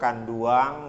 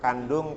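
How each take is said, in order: First: It is said with a final -uang sound. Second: It is said with a plain final -ung.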